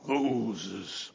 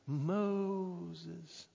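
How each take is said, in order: First: The name is called loudly and powerfully. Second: The name is called softly and alluringly. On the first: The caller is showing overwhelming might. "the great and powerful" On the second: The caller is enticing him to come closer. "the luring and the sensual"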